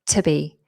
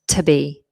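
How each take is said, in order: First: The vowel in 'to' is almost dropped. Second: The same.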